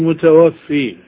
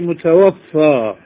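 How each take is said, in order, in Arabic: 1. تنتهي الكلمة بصوت الحركة 'ee'. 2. تنتهي الكلمة بصوت الحركة 'a'. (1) "لا تقولي متوفي. المتوفي هو الله" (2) "قولي متوفى"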